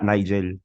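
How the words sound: The name is said the Manila way. "dito sa, sa Maynila"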